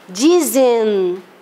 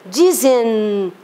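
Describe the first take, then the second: Both takes have the same delivery.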